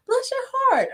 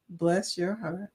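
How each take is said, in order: First: Very high-pitched mock sweetness; different accent and meaning. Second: Put-on soft, slow old Southern lady. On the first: Showing it depends on who's saying it, high-pitched take. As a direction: squeal it way up high. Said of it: "depends on who's saying it and what accent". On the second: Showing how an old lady from the South says it, soft and slow. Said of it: "they say it in a specific way". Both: Shown as a demonstration.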